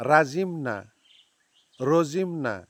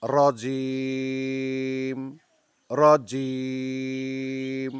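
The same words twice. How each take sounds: First: রাজিম and রজিম said short, as mistakes; wrong forms. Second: রজিম very slow with a hard জি and a long ending; correct রজিম. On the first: Teacher listing students' wrong forms, short and quick. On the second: Teacher modelling রজিম for students, very slow and drawn out. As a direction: hold the end of রজিম three beats. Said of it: "তিন second টানতে হবে শেষে". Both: Shown as a demonstration.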